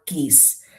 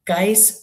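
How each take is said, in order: First: "geese" with a long ee vowel and hard g; geis as "geese". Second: "geis" with a long eye vowel, like "guys". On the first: Card reader offering another reading of geis, pronounced "geese". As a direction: say "geese" to rhyme with "fleece". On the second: Card reader unsure of the Irish word, "geis" pronounced like "guys". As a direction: say "geis" to rhyme with "ice". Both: Shown as a demonstration. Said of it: "is it pronounced geis or geese".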